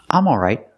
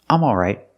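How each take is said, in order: No difference in how they are said.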